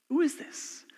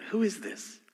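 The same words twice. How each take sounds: First: High, hushed, wondering who is this; high wondering question. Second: Hushed question. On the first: Preacher repeating the disciples' question to the congregation, high and hushed. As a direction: ask it high and soft in wonder. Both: Shown as a demonstration. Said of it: "Very important".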